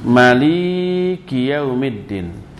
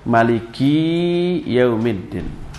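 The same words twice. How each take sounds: First: The middle syllable li is held long. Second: The last syllable ki is held long. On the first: "mak pendek tapi li-nya yang panjang" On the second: "memendekkan mak dan li-nya tapi memanjangkan ki-nya"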